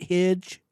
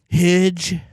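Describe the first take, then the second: First: The vowel is said short, without extra emphasis. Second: The vowel is drawn out with heavy emphasis.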